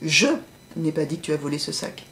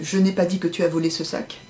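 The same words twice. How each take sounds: First: One word of the sentence is clearly emphasized. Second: The sentence is said fairly flat and neutral. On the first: "je vais mettre une intonation différente à chaque fois" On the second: "j'essaye de le dire de manière un peu neutre"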